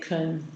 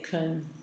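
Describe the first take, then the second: First: The word has a short, centralized unstressed vowel. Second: The same.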